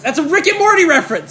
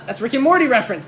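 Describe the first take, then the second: First: Raised, louder, higher voice; emphatic announcement. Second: Said in the usual way. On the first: Shown as a demonstration. Guest repeating his Rick and Morty reference, loud and emphatic. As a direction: call it out loud and high.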